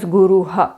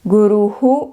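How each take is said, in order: First: The final h is followed by an a vowel. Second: The final h is followed by an echoed u. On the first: "Definitely don't pronounce this as" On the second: "the South Indian way"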